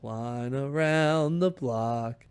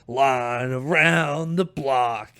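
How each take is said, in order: First: It is said smoothly and flatly. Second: It is said with extra energy and punch.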